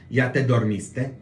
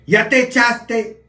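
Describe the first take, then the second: First: Said in the usual way. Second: Much higher, much louder, slow mock call; slangy Oaxaca voice. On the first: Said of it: "A mí no me decían". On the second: Oaxaca family sending him to bed, loud mock voice. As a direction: drag it out like a rowdy relative. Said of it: "Sino decían".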